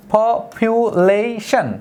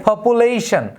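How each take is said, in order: First: population very slow, po-pu-la-tion split apart; syllable by syllable. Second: Said in the usual way. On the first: Shown as a demonstration. Teacher repeating population slowly in syllables. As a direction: draw out each beat of population. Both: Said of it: "তারপর হচ্ছে population".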